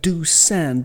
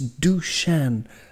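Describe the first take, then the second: First: The middle consonant is a plain S sound. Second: The middle consonant is an SH sound. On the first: The speaker calls it wrong. "it looks like Dusan" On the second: The speaker calls it right. "that changes the S to an SH"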